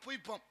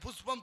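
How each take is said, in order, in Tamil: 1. நடுவில் உள்ள மெய் 'y' ஒலி. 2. நடுவில் உள்ள மெய் 'sh' ஒலி. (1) "புய்பம்ங்கிறானே" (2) "புஷ்பம்னு சொல்ல தெரியல"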